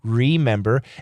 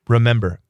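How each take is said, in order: First: The first syllable has a full 'ree' vowel. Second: The first syllable is reduced to a bare 'r'. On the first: "Americans say re" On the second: "sometimes Americans say r"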